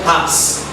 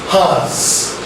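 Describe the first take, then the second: First: The word ends with a hissing s sound. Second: The word ends with a buzzing z sound. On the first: The speaker calls it wrong. "not has. It's not sasam" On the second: The speaker calls it right. "It's pronounced as has"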